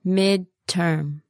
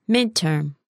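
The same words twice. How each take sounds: First: "Midterm" split into two slow syllables; slow word model. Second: Said in the usual way. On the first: Shown as a demonstration. Teacher modelling "Midterm" for learners, slowly. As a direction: pause between the halves of "Midterm".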